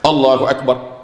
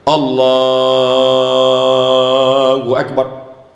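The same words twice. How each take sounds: First: The phrase is said short and quickly. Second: The phrase is drawn out long and slowly.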